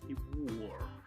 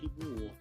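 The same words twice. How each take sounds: First: The R in wore is strongly pronounced. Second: The R in wore is dropped, non-American.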